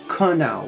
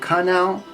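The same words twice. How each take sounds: First: The first syllable uses the American vowel after K. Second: The first syllable uses a different, non-American vowel. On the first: The speaker calls it right. "in American English we pronounce it canal with the C K K sound" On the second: The speaker calls it wrong. "You could probably pronounce it canal"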